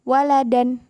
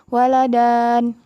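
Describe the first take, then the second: First: The final vowel is short. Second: The final vowel is drawn out long. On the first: The speaker calls it right. "nggak panjang kan?" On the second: The speaker calls it wrong. "Bukan Ustazah bacanya waladan"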